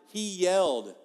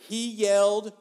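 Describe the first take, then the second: The two takes are said the same way.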